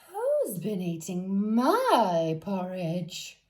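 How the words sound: It is said in a middle-sized voice.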